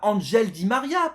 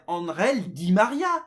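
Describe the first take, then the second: First: The name is pronounced the American English way. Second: The name is pronounced the Spanish way. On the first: The speaker calls it wrong. "on dit pas Angel Di Maria" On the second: The speaker calls it right. "on dit bien Angel Di Maria"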